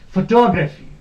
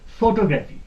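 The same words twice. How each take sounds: First: The stress is on the second syllable. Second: The stress is on the first syllable. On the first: The speaker calls it right. "The stress has to be put here on to" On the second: The speaker calls it wrong. "That is wrong. ... We give stress here on pho, but that is wrong"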